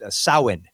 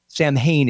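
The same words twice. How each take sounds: First: The word is said the Gaelic way. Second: The word is said as it is spelled. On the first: The speaker calls it right. "it would be pronounced Samhain" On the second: The speaker calls it wrong. "Samhain is woefully incorrect"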